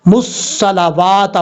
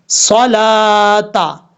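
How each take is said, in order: First: मुस्सलावाता with an extra वा sound; wrong reading. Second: सलाता drawn out very slowly with no वा; correct reading. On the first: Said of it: "ऐसा नहीं पढ़ना". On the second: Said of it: "सलावाता नहीं पढ़ना". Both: Shown as a demonstration.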